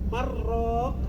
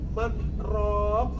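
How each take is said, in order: First: The n merges fully into the following r. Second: The n is kept, with a brief stop before r. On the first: The meaning changes. The speaker calls it wrong. "bertemu antara nun dan ro menjadi idgham bila gunnah" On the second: The intended meaning is preserved. The speaker calls it right. "maka artinya berbeda dengan man raq"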